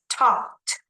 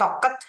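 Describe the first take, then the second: First: The ending joins the word as one syllable. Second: The ending is said as a separate syllable. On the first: The speaker calls it right. "but only like this" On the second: The speaker calls it wrong. "bukan toket"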